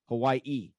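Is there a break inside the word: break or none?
break. The word has a small break before the end. The speaker calls it right. "you're supposed to say it with a little pause"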